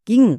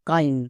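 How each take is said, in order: First: It ends in a short 'ing' sound. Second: It has an 'ai' vowel and ends in 'n'. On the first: The speaker calls it right. "শব্দের শেষে আইএনজি আছে, তার মানে ইং উচ্চারণ হবে" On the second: The speaker calls it wrong. "একে আমরা ভুল করেও কাইন উচ্চারণ করব না"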